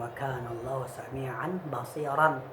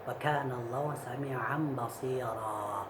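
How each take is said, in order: First: The last word ends with an n sound. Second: The last word ends on a long vowel. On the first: The speaker calls it wrong. "Jadi bukan" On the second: The speaker calls it right. "fathatainnya diganti alif menjadi mad"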